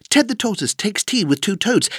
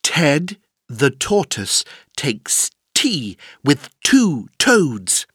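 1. La phrase est dite très vite, sans pauses. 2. La phrase est dite lentement, avec des pauses.

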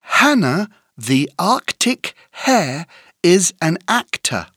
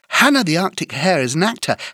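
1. La phrase est dite à un rythme modéré. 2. La phrase est dite à un rythme très rapide.

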